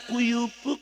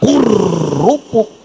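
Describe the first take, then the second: First: The r sound is replaced with a y sound. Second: The r sound is pronounced clearly as r. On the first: The speaker calls it wrong. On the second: The speaker calls it right. "sing paseh"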